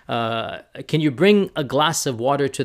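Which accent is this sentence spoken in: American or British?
American. It is spoken in an American English accent. "if an American says that"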